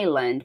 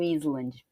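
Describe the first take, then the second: First: The S is not pronounced at all. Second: The S is pronounced in the word. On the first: The speaker calls it right. "o S aqui é silencioso" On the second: The speaker calls it wrong. "Eu não falo Island"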